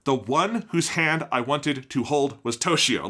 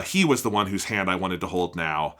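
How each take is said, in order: First: Slow and deliberate, "Toshio" landing as the payoff; emphatic literal reading. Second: Said in the usual way. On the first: Shown as a demonstration. Teacher explaining the literal Japanese to students, slow and emphatic. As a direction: lay out "The one whose hand I wanted to hold" slowly, then hit "Toshio". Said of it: "is, like, emphatic". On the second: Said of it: "the subtitles translated as".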